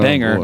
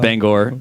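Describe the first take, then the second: First: The last syllable sounds like 'ger'. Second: The last syllable sounds like 'gor'. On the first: This marks the speaker as an outsider. The speaker calls it wrong. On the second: This is how locals say it. The speaker calls it right. "it's Bangor when you're in Bangor"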